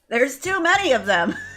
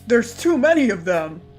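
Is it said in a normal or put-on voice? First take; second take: put-on; normal. First: It is said in a put-on twink voice. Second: It is said in his normal voice.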